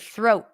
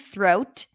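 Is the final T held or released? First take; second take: held; released. First: The final T is held with abrupt stop. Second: The final T is released with a puff. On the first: "It's an abrupt stop of air" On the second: "Now you can pop the T"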